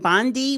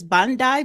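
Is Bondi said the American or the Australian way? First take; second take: American; Australian. First: Bondi is pronounced the American way. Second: Bondi is pronounced the Australian way. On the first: "Americans we would name it Bondi" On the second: "That's how they pronounce it in Australia"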